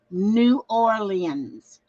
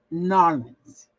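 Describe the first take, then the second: First: New Orleans slowly in full, new OR-lee-ans. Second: Narlands clipped to NAR-lands. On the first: Contrasting the old way, New Orleans. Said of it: "because I always said New Orleans". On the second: Correcting herself for viewers, Narlands. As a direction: say Narlands as two quick syllables, NAR-lands. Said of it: "I had to learn how to say Narlands". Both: Shown as a demonstration.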